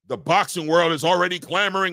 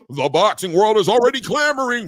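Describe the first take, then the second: First: It is said in an ordinary speaking voice. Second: It is said in a hyped announcer voice.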